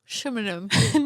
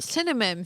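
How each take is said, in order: First: The word begins with a sh sound. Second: The word begins with an s sound. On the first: The speaker calls it wrong. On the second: The speaker calls it right.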